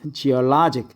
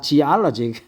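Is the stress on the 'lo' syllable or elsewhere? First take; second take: lo syllable; elsewhere. First: The stress falls on the 'lo' syllable. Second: The stress falls away from the 'lo' syllable. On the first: The speaker calls it right. "This later O has the accent geologic" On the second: The speaker calls it wrong. "not geologic"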